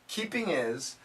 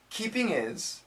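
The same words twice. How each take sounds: First: It is said quickly with the H in 'his' dropped. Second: It is said quickly with the H in 'his' dropped.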